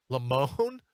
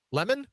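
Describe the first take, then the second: First: Lemon as a drawn-out "luh-MOHN", rising; second syllable stressed. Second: Lemon said like the fruit, "LEM-un"; first syllable stressed. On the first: Host toying with the anchor's name, Lemon as "luh-MOHN". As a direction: hold the end of Lemon, "luh-MOOOHN". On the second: Host settling on the anchor's name, Lemon as "LEM-un". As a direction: hit the first syllable of Lemon, short second one. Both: Shown as a demonstration. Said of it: "however he pronounces it".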